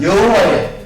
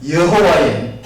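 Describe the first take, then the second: First: Louder call-and-response lead, for the church to echo; calling out for the congregation. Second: Said in the usual way. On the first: Shown as a demonstration. Preacher leading the church in a repeat-after-me, calling out. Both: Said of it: "다시 따라합니다".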